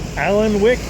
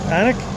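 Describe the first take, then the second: First: The name is said as it is spelled. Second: The name is said short, as Anik. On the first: An outsider's reading of the name. The speaker calls it wrong. "with my bad pronunciation" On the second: How the locals say the name. The speaker calls it right. "everyone here with accents call it Anik"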